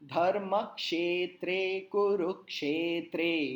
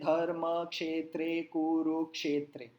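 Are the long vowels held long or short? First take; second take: long; short. First: The long vowels are drawn out noticeably longer. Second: The long vowels are said short and clipped. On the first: The speaker calls it right. "हर एक ही मात्रा को मैंने थोड़ा लंबा खींचा" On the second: The speaker calls it wrong. "आप ऐसा नहीं कह सकते"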